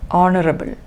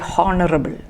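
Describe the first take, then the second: First: The word begins with a vowel, no H. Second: The word begins with a sounded H. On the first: The speaker calls it right. "we do not pronounce the first H. You just say" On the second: The speaker calls it wrong. "It is wrong to say"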